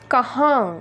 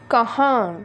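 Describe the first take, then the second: Both takes have the same delivery.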